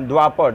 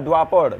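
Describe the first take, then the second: Both takes have the same delivery.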